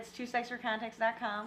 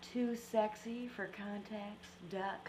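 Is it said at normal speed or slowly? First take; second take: normal speed; slowly. First: It is said at normal speed. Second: It is said more slowly.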